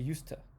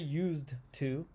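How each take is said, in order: First: It is said fast with the sounds reduced. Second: It is said slowly with each sound clear. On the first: "If we want to say it quick" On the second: "we don't say"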